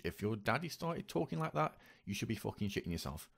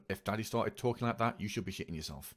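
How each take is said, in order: First: Raised emphatic restatement then softer; emphatic repeat. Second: Said in the usual way. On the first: Real, not acted.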